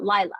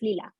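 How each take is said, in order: First: The first vowel sounds like 'eye'. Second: The first vowel sounds like 'ee'. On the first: The speaker calls it wrong. "Lila is not Lila" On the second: The speaker calls it right. "It's Lila. ... I is always the E sound"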